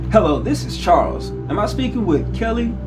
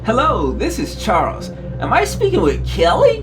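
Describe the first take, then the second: First: The voice sounds serious and formal. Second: The voice sounds cheerful and upbeat. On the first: "You sound too serious now" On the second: "don't sound like the chipper salesman"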